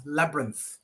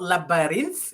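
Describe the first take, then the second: First: "labyrinth" in two syllables, LAB-runth, falling; correct pronunciation. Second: "labyrinth" with an extra middle syllable, raised pitch at the end; wrong pronunciation. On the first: Teacher corrects student, two-syllable "labyrinth" as LAB-runth. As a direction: model "labyrinth" as LAB-runth, middle vowel dropped. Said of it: "it's labyrinth". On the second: Teacher imitates student's mistake, wrong three-syllable "labyrinth". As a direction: mispronounce "labyrinth" in three syllables, lab-uh-rith. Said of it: "it's not labyrinth". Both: Shown as a demonstration.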